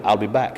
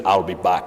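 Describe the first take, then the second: First: Said in the usual way. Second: Low, modest action-hero imitation; a hint of the film tough guy, dropped low; Arnold Schwarzenegger. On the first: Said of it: "Say it like you said it before". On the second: Actor finally obliging fans, lightly imitated low catchphrase. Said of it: "said it in his own unique way that I can't do".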